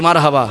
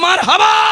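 First: The word is said loudly. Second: The word is said very loudly. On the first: "এবার জোরে বলি" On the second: "আরো জোরে"

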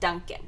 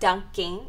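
First: The word ends with a plain 'n' sound. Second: The word ends with an 'ng' sound. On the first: The speaker calls it right. "there's actually no G at the end. It's Dunkin'" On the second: The speaker calls it wrong. "It's not dunking"

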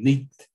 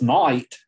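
First: The vowel sounds like 'ee', with a final consonant. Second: The vowel sounds like 'eye', as today. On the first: This is how the word was said long ago. "the way that they would pronounce it then would be neeked" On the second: This is how the word is said today. "It's pretty easy to tell this word's night"

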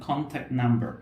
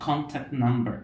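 Both takes have the same delivery.

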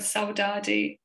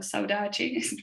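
First: It is said with a Brazilian Portuguese accent. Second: It is said with a European Portuguese accent. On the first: "depending on whether you're Brazilian" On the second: "or Portuguese from Portugal"

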